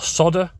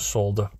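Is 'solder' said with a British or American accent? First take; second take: American; British. First: It is said the American way, without an L. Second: It is said the British way, with an L.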